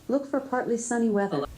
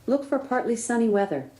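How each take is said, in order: The two takes are said the same way.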